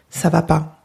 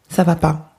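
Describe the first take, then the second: The two takes are said the same way.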